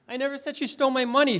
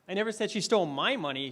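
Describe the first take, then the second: First: The stress is on the word money. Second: The stress is on the word my.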